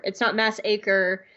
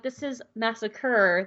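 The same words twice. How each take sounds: First: "mass acre" split as MASS AY-ker; "mass acre" said as two words; mispronounced. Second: Said in the usual way. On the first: Retold or imitated.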